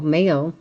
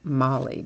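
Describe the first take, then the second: First: The name is one syllable, rhyming with mail. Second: The name is two syllables, rhyming with jolly. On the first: The speaker calls it wrong. "I usually say Mail" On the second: The speaker calls it right. "I think it's supposed to be Molly"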